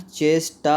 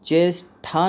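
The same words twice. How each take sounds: First: "चेष्टा" with unaspirated ṭ, cheshṭā; "चेष्टा" drawn out as chesh-ṭā; correct pronunciation. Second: "चेष्टा" with aspirated ṭh, cheshṭhā; "चेष्टा" mispronounced as chesh-ṭhā; wrong pronunciation. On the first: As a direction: say "चेष्टा" slowly, ending in a clean ṭā without breath. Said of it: "होता है". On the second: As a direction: say "चेष्टा" slowly and wrongly, ending in breathy ṭhā. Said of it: "नहीं होता है". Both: Shown as a demonstration.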